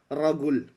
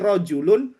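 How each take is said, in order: First: It is said in an Egyptian Arabic accent. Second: It is said in a Standard Arabic accent.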